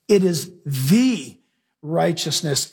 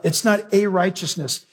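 First: The stretched slowly before righteousness; stress on the. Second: A said long and falling, contrasted with the; stress on a. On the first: Preacher pointing the congregation to the word the, slow stress. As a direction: linger on the, then drop on righteousness. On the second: Preacher contrasting a with the in the verse, stressing a. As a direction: hit the word a in not a righteousness. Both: Shown as a demonstration. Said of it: "circle the word "the".

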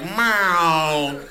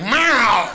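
First: One drawn-out meow; cat meow. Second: Loud, demanding meow; yelling hungry cat. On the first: Cat asking once a month, drawn-out meow. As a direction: stretch out a single cat call. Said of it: "Cats meow once a month". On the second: Hungry cat coming in to complain, yelling. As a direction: yowl it out like an angry cat. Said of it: "cats are yelling at you when they're hungry". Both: Acted.

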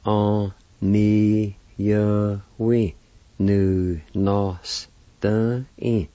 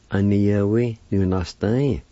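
First: "on ni ya we nu nos tan in" drawn out very slowly, each syllable separate. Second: Said in the usual way. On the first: Shown as a demonstration. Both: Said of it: "And together".

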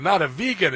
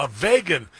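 First: "vegan" said VEE-gun; corrected vegan. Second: "vegan" said VAY-gun; mispronounced vegan. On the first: Host gives the wife's correction, "vegan" as VEE-gun. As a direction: say "vegan" with a long EE in the first syllable. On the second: Host quotes the President's slip, "vegan" as VAY-gun. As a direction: say "vegan" with a long AY in the first syllable. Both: Retold or imitated. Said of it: "you mispronounced a word".

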